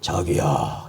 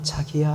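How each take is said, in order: First: The voice is hard, rough and blunt. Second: The voice is soft, sweet and pretty. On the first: The speaker has aged and hardened. "이렇게 딱 나오면 남자가 뭐지?" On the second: The speaker is young and affectionate. "그렇게 이뻤던 목소리가"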